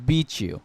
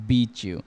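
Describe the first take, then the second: The two takes are said the same way.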